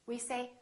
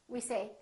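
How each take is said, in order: The two takes are said the same way.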